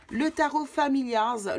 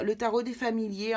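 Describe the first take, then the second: First: Familiars said the English way, slowly, in an English accent; English title. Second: Said in the usual way. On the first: Shown as a demonstration. Tarot reader reading the English deck name, Familiars in an English accent. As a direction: give Familiars its English sound, drawn out.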